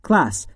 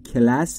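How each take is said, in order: First: The k and l join with no vowel between. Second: A short vowel comes between the k and l. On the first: The speaker calls it right. "بین C و L صدایی وجود نداره" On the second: The speaker calls it wrong. "تلفظ اشتباهش خیلیا میگن کلاس ولی کلاس نیست"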